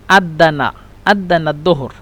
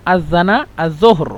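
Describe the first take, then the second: First: আদানা দোহর with দ for জ; Egyptian আদানা দোহর. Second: আজানা জোহর with জ sounds; standard আজানা জোহর. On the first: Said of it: "মিশরের আঞ্চলিক ভাষায়". (মিশরীয় উচ্চারণে আদানা দোহর) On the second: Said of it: "শুদ্ধ ভাষা হলো". (শুদ্ধ আরবিতে আজানা জোহর) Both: Shown as a demonstration.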